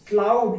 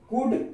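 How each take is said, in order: First: The L sound is pronounced. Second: The L sound is silent. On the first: The speaker calls it wrong. "अगर हम एल को ना silent करके अगर ऐसे पढ़ते हैं" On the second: The speaker calls it right. "एल silent है"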